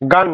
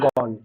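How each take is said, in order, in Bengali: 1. স্বরধ্বনিটি একটি খোলা, অগোলাকার 'ah'। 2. স্বরধ্বনিটি একটি গোলাকার 'o'। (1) "গান নয়" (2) "এটার উচ্চারণ গন"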